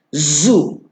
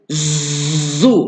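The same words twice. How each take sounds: First: The z has a light, soft buzz. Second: The z has a strong, heavy buzz. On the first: The speaker calls it right. "Ada seekor je lebahnya" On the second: The speaker calls it wrong. "tu banyak sangat lebah dia"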